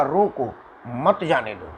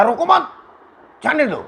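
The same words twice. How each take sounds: First: Group it as रोको, pause, मत जाने दो; pause after रोको. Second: Group it as रोको मत, pause, जाने दो; pause after मत. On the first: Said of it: "इसको लिखा जाएगा तो समझ में नहीं आएगा कि भाव का है". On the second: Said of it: "ये बोलने के भाव से ही समझ में आ गया". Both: Shown as a demonstration.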